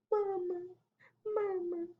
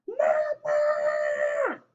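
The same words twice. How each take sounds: First: High, tiny whimper; soft cry. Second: Put-on high, drawn-out child's call. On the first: Baby llama whimpers for his mama, soft cry. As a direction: whimper softly like a little one. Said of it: "He does, like, a soft cry". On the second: Baby llama calls down to his mama, calling out. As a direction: holler downstairs for mama, high and long. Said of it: "calls down to his llama mama". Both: A narrator's reading.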